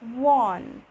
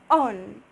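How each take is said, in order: First: The word starts with a W-like sound. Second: The word starts with a plain vowel. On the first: The speaker calls it right. "we'll say one" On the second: The speaker calls it wrong. "but we won't say on"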